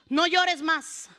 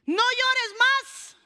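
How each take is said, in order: First: Slow, measured command with falling end; firm pronouncement. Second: Very slow, high command, rising at the end; ringing proclamation. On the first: Preacher gives Jesus's answer to the sick, slow firm pronouncement. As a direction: say it slowly and settle downward. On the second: Preacher repeats Jesus's answer to the congregation, ringing proclamation. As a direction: stretch it out and lift it high. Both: Acted.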